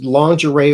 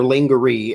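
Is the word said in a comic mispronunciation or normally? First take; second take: normally; comic. First: The word gets its usual pronunciation. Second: The word gets a comic, mangled pronunciation.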